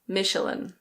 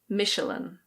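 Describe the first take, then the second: First: It is said with an English pronunciation. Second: The same.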